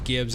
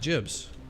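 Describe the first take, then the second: First: The word begins with a hard G sound. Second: The word begins with a soft J sound.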